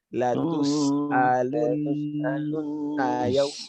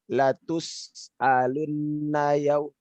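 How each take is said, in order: First: The doubled nasal sound is held for three counts. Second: The doubled nasal sound is held only briefly. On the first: The speaker calls it right. "minimal tiga, tiga harokat" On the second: The speaker calls it wrong. "tidak cukup"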